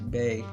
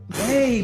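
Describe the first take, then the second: First: It is said in her ordinary voice. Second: It is said in a higher, girly voice. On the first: "I go from like" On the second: "to like"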